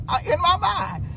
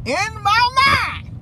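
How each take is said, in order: First: Said in the usual way. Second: "In my mind" stretched slow and high, every word leaned on; slow, pointed "In my mind"; drawn-out emphasis. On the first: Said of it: "repeats phrase stretched". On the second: Shown as a demonstration. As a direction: drag out "In my mind" and lift it. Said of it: "repeated slowly for emphasis".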